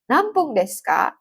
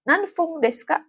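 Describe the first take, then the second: First: The second syllable starts with a p sound. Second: The second syllable starts with an f sound. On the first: The speaker calls it right. "Tapi pakainya nanpung" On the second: The speaker calls it wrong. "bukan nanfung ... Nggak ada ya"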